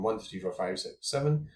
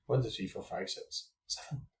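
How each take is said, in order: First: Said in the usual way. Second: Whispered count. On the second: Shown as a demonstration. Counting again, hushed.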